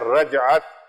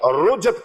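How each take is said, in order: First: The first vowel is an 'a' sound. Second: The first vowel is a 'u' sound. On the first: The speaker calls it right. "लफ्ज है रजअत" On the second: The speaker calls it wrong. "कई हजरात रुजत कहते हैं"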